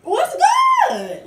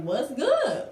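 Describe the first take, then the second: First: Very high, loud taunting shout; challenging shout. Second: Casual challenge. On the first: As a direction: call her out, picking a fight. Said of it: "I pressed her ass again saying". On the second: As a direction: toss out the challenge coolly. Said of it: "So I'm just like". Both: Retold or imitated.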